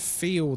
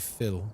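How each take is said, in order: First: The vowel is a long 'ee' sound. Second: The vowel is a short 'i' sound. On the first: This is the usual non-Texan pronunciation. "So instead of feel" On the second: This is the Texan pronunciation. "they say fill"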